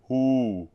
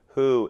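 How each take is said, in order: First: A dark, open vowel with a lowered larynx. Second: A bright, speech-like vowel with a narrower throat. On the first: "larynx being slightly lowered" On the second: "my oo vowel is a little brighter"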